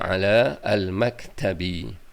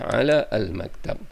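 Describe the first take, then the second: First: The last word ends with an i vowel. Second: The last word ends on a bare consonant.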